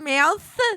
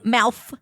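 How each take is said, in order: First: The word ends with a th sound. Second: The word ends with an f sound. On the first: "instead of mouth" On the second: "she'll pronounce like V words with a F sound"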